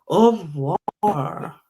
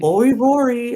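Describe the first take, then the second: First: It is said with a French-sounding pronunciation. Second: It is said with an exaggerated American accent.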